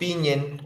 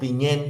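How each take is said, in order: First: The stress is on the first syllable. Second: The stress is on the last syllable.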